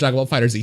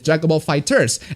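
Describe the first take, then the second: First: The last word ends with a separate letter Z. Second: The last word ends in a plain s sound. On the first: "I'll pronounce it Dragon Ball Fighter Z" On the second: "that's how people pronounce it"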